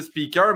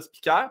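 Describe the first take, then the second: First: Said in the usual way. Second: Speaker as "spee-KAIR" with French r; French pronunciation. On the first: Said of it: "on peut dire speaker". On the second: Retold or imitated. French friend keeps his own way, French-style pronunciation of speaker. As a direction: end speaker on an open French "-èr". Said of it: "tu continues à dire speaker".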